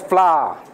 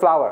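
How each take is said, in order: First: The word has a Singaporean-style pronunciation. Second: The word has a standard, non-Singaporean pronunciation. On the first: The speaker calls it wrong. "Singaporean is flour" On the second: The speaker calls it right. "But should be pronounced right"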